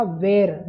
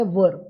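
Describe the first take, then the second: First: "were" said like "wear", with a long e; school mispronunciation. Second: "were" said as "wur", rhyming with "fur"; short central vowel in "were", not "air"; correct pronunciation. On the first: Teacher mimicking the school-taught way, "were" pronounced as "wear". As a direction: say "were" to rhyme with "air". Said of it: "जिसे school में सिखाया था". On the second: Teacher correcting learners, "were" pronounced as "wur". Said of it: "उसका सही उच्चारण होता है". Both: Shown as a demonstration.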